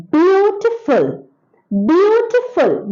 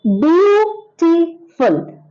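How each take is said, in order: First: Beautiful, beautiful drawn out slowly, beat by beat; slow it down to show the syllables of beautiful; syllable demo. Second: Beautiful stretched very slowly, each syllable apart; syllable demo. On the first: Teacher to children, saying beautiful slowly by syllables. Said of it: "beautiful has got a syllable". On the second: Teacher to children, beautiful stretched syllable by syllable. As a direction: drag out beautiful to show the syllables. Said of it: "It has got two syllables". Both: Shown as a demonstration.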